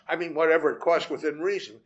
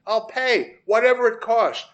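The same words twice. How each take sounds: First: Backing off, "whatever" without the push; walk it back, adding "within reason" as a caveat; hedging. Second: "whatever" pushed higher and louder; emphatic pledge. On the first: Man qualifying his offer to the vet, toned-down "whatever". Hedges the offer just made. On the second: Man begging the vet for an autopsy, emphatic "whatever". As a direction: promise it urgently, stressing "whatever". Desperate offer, then backs off. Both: A narrator's reading.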